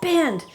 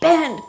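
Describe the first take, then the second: First: The word is yelled forcefully. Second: The word is yelled forcefully.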